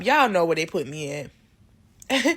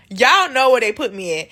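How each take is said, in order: First: Said in the usual way. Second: Louder teasing repeat of Y'all know where they put me at, falling at the end; emphatic repeat. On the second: Real, not acted. To listeners after a laugh, a louder playful repeat. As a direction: punch Y'all and lean into the repeat.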